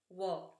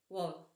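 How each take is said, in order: The two takes are said the same way.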